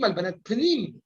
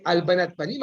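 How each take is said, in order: First: "pnim" with the A dropped; pnim without first vowel. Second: "panim" in two full syllables; panim with full first vowel. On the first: Teacher showing students the inner-meaning wordplay, "pnim" as one syllable. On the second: Teacher pointing out a wordplay to students, "panim" fully voweled. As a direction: say "panim" as pa-NIM, with an A. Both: Shown as a demonstration. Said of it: "évidemment, vous avez remarqué".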